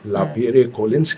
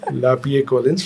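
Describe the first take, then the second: First: An r sound is heard in Lapierre. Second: No r sound is heard in Lapierre. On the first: The speaker calls it wrong. "हमने गलत बोल दिया।" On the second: The speaker calls it right. "लापिये कोलिंस उसका सही उच्चारण है"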